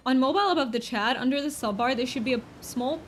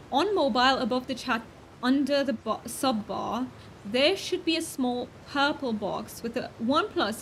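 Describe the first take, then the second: First: Said in the usual way. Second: Lightly faked British accent, not far from her own voice; playful British accent. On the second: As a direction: redo it in a mild amateur British accent. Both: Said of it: "oh, I forgot my accent".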